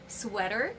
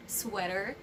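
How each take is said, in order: Both takes have the same delivery.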